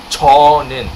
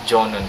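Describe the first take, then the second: First: The word begins with a ch sound. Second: The word begins with a j sound. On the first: The speaker calls it right. "It's Chonun. It's first syllable C H" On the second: The speaker calls it wrong. "It's not Jonun class"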